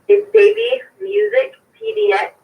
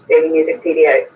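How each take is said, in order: First: It is said slowly. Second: It is said at normal speed.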